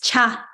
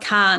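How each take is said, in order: First: It begins with a 'ch' sound. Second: It begins with a 'k' sound. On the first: The speaker calls it right. "C A is Cha" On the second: The speaker calls it wrong. "not Ka"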